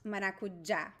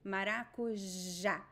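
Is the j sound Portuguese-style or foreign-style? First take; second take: foreign-style; Portuguese-style. First: The j is said with a non-Portuguese sound. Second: The j is said with the Portuguese j sound. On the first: The speaker calls it wrong. "It is not maracujá. Nope. It is not ja" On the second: The speaker calls it right. "It is j"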